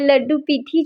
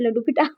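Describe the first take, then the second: First: The second word is said as 'peethi'. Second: The second word is said as 'pita'. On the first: The speaker calls it right. "अक्सर ये pronounce जो है वो गलत हो जाता है" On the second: The speaker calls it wrong. "नहीं"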